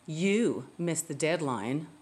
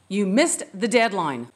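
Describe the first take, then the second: First: The voice sounds sarcastic and mocking. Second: The voice sounds angry and harsh. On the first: The speaker is trying to make the listener feel guilty. "What a manipulative, sarcastic way to try to make me feel guilty" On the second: The speaker is out of control. "she's so angry, she's out of control"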